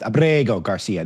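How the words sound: The name has heavy emphasis and an Italian-sounding accent.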